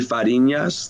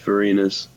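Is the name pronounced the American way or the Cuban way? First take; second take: Cuban; American. First: The name is said with a Cuban Spanish pronunciation. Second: The name is said with an American English pronunciation. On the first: "The Cuban one would be" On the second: "I go by like the American pronunciation"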